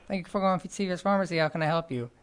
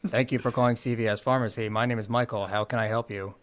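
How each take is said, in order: First: It is said in his normal voice. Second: It is said in a robotic radio voice.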